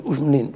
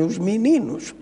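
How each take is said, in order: First: Meninos squeezed to m'ninos; European Portuguese vowel-swallowing. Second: Meninos with every vowel sounded, mi-ni-nos; Brazilian pronunciation. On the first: Showing how the Portuguese speak, meninos as m'ninos. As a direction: say meninos with the first vowel dropped. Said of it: "Nós dizemos". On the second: Contrasting with Brazilian friends, meninos with full vowels. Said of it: "os nossos amigos brasileiros dizem". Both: Shown as a demonstration.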